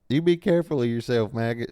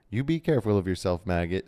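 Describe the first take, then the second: First: It is read in a southern accent. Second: It is read in a plain accent.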